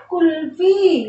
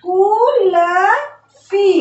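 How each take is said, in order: First: Said in the usual way. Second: कुलफी stretched out very slowly; very slow drawn word. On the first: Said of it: "शब्द क्या बना?". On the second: Shown as a demonstration. Teacher models कुलफी very slowly. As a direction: drag कुलफी out slowly for the class. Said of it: "उसके बाद कु".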